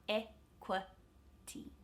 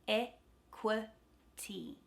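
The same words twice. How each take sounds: The two takes are said the same way.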